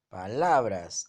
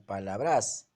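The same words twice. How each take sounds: First: The stress is on the middle syllable. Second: The stress is on the last syllable. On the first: The speaker calls it right. "entonces es una grave" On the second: The speaker calls it wrong. "La mayor fuerza está en bras"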